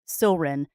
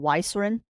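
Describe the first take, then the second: First: The name begins directly with an s sound. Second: The name begins with an added why sound. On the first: The speaker calls it right. "the Y is silent" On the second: The speaker calls it wrong. "or Y Silrin because of the Y on the front"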